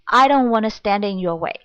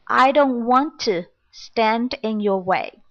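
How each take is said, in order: First: 'Want to' is blended into one reduced word. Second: Each word of 'want to' is said separately. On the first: "it's kind of reduced form. It's blending sound" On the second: "The original sentence is"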